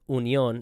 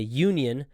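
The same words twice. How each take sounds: First: It is said with a German pronunciation. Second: It is said with an American pronunciation. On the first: The speaker calls it right. "it's said pronounced Union" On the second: The speaker calls it wrong. "We say Union"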